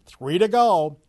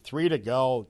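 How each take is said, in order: First: Louder, higher emphatic call. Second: Said in the usual way. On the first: Real, not acted. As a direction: punch it out louder. Repeated count, punched second take.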